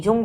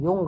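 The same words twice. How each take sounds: First: "जुंग" with an initial J sound; J pronunciation. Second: "युंग" with an initial Y sound; Y pronunciation. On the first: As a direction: open "जुंग" on a hard ज, as in jam. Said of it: "य को ज पढ़ा जाता है". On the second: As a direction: open "युंग" on य, as in you. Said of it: "ज को य पढ़ा जाता है". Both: Shown as a demonstration.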